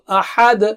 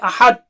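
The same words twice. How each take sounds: First: The final consonant has an echoing release. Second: The final consonant has no audible release. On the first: The speaker calls it right. "dal will be clear" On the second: The speaker calls it wrong. "Don't say ahad. I don't know what you said"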